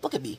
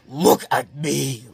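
First: It is said quietly and calmly. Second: It is screamed very loudly.

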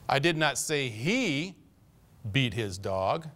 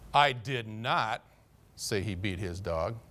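First: The word 'he' is stressed. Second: The word 'say' is stressed. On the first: The speaker was talking about someone else, not him. "That fellow over there, he beats his dog all the time, but I didn't say he did" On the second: The speaker may have implied it but never said it. "I might have inferred it, but I didn't say it"

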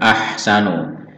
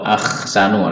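First: The h sound is clean without rasp. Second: The h sound is raspy like kh. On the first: The speaker calls it right. "Dia tanpa ada serak" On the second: The speaker calls it wrong. "kalau ada serak dan jadi ko"

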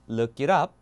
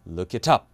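First: The T is a soft flap, like a quick D. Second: The T is a crisp, clearly released T sound. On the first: This is the American way. "이게 맞죠?" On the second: This is the British way. "이렇게요"

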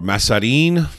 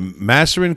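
First: The name is pronounced the Italian way. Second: The name is pronounced the English way. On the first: "or Maserin, maybe you would say" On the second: "I'll say it the English way"

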